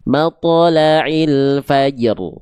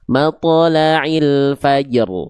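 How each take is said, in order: No difference in how they are said.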